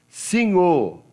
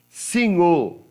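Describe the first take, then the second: The two takes are said the same way.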